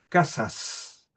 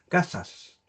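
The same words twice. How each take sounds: First: The s sounds are fully and clearly pronounced. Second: The s sounds are weakened to a breathy sound. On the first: "pronunciarlo de manera esmerada, pronunciar la S" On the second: "aspiración de S, que es como pronunciarla de manera relajada, a medias"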